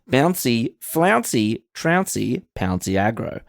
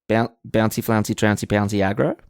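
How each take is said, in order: First: It is read at a normal pace. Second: It is read at a fast pace.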